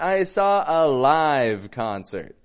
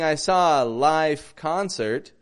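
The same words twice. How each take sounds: First: The word live ends with a V sound. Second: The word live ends with an F sound. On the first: The speaker calls it right. "we want, ... Just to get those Fs and Vs very distinct" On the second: The speaker calls it wrong. "Instead of saying"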